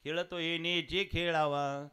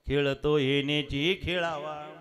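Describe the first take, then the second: First: Said in the usual way. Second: Louder slower repeat. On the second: Acted. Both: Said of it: "गरुडाने सांगितलं".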